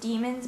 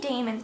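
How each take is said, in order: First: The first syllable sounds like 'dee'. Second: The first syllable sounds like 'day'. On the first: It is the accepted pronunciation. "I'm pretty sure the pronunciation is demons" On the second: It follows the spelling with D A E. "I want to say daemons"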